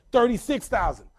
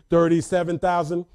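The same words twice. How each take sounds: First: Said in the usual way. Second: Put-on lower-pitched bid in heavy Haitian accent; calm, strong accent. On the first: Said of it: "she goes". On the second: Mom calmly outbids the bank, strong Haitian accent. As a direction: imitate mom's thick Haitian accent, composed. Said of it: "collect, with her strong accent".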